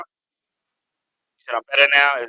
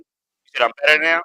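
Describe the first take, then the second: First: Very slow, stretched question; drawn out. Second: Said in the usual way. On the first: Real, not acted. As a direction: draw every word out slowly.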